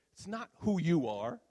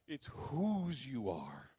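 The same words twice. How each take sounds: First: "who" lifted louder and higher, tune left rising; stress on who. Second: "whose" stretched out very slowly; stress on whose. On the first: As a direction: set up the contrast on "who". Contrasts who with whose. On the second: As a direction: land the point on a long "whose". Answers the contrast, slowly. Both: Real, not acted.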